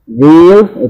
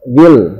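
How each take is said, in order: First: The vowel is drawn out long. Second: The vowel is kept short. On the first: The speaker calls it wrong. "Dzil itu tidak benar" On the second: The speaker calls it right. "Yang betul adalah dzil, karena di depannya ada alif lam"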